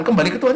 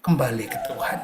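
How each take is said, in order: First: Said in the usual way. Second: Low, soft voice of God saying Kembali. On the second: Acted. God's one message to the distant, low and soft. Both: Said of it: "suara Tuhan akan cuma ngomong itu".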